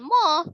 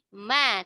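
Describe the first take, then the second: First: The syllable is heavy, with a rounded dark vowel. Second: The syllable is thin, with a light open vowel. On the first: The speaker calls it wrong. "bukan moh" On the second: The speaker calls it right. "tapi ma, tetap ditipiskan"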